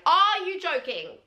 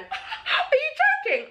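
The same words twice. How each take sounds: First: High, slow, stunned exclamation; gobsmacked. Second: Very high, drawn-out squeal through laughter; shocked disbelief. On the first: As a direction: stretch it out in utter disbelief. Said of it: "I was literally gobsmacked". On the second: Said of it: "I literally went". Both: Retold or imitated.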